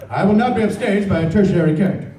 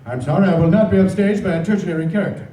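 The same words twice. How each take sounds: First: Louder, higher, theatrical mock indignation; mocking Robin Williams. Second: Imitating Robin Williams. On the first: Voice actor retelling a co-star's mock outrage, loud and hammed-up. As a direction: puff up with grand fake offense. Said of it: "They go". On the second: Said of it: "And Robin says".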